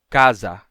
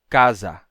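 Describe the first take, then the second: No difference in how they are said.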